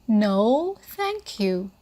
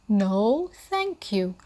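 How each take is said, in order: Both takes have the same delivery.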